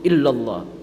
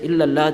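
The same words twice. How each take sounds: First: The l is thick, said with a full mouth. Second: The l is thin, said with an empty mouth. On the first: The speaker calls it right. "One must pronounce it with a full mouth" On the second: The speaker calls it wrong. "To say illallah, that's wrong because it is a fatha before it"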